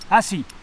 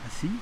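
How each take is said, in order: First: The command is said in a stern, forceful tone. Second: The command is said in a gentle, polite tone. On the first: It is an impatient order to sit at once. "Dans le deuxième cas, eh bien, assieds-toi au nom de Dieu" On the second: It is a polite request to sit. "dans le premier cas, assieds-toi s'il te plaît"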